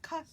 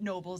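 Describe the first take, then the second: First: The word begins with an audible K sound. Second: The word begins with a plain N sound. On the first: The speaker calls it right. "you do pronounce the K" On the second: The speaker calls it wrong. "It's not Nobles"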